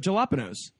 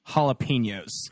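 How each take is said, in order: First: The word is given a deliberately altered pronunciation. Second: The word is given its standard pronunciation. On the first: The speaker chose to say it incorrectly on purpose. The speaker calls it wrong. "when you purposefully mispronounce a word" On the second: Someone else corrected the pronunciation. The speaker calls it right. "she's actually right"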